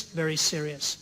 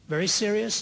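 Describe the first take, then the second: First: Said in the usual way. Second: "Very serious?" with serious rising high in disbelief; stunned echo, "serious" lifted high; incredulous question. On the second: Retold or imitated. Professor echoes judge in disbelief.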